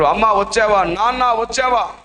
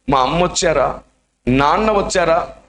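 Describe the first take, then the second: First: Higher, calling out for mother and father. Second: Said in the usual way. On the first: Acted. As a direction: call out hopefully into the dark. Boy calls out for parents. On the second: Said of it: "అని వెతుక్కుంటున్నారు".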